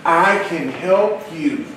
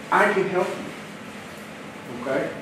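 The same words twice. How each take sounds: First: Said in the usual way. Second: Softer, slow and tender; slow soft promise to the agents; soft reassurance. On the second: Shown as a demonstration. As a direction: say it gently and slowly. Repeats the promise, softer and slower.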